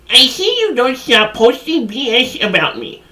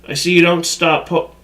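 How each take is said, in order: First: It is said in an imitated sender's voice. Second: It is said in his normal voice.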